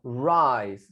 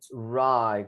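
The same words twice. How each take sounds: First: "Rise" said clearly with its final s; pronunciation model. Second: "Right" said without a final s; pronunciation model. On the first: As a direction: model "Rise" as RAIS for a learner. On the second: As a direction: say "Right" low, with no s. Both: Shown as a demonstration. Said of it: "¿Se pronuncia?".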